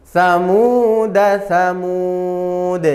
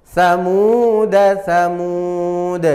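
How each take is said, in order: Both takes have the same delivery.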